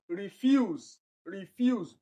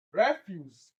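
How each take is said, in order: First: "refuse" said ri-FUSE, stress on the end; stress on second syllable. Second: "refuse" as a noun, stress on the first syllable REF. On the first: Teacher shows students the other form, stress on second syllable. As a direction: reduce RI and land on FUSE in "refuse". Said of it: "in form of adjective". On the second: Teacher pronounces the noun for exam students, stress on first syllable. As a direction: hit REF in "refuse", let the end fall. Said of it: "it is the noun". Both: Shown as a demonstration.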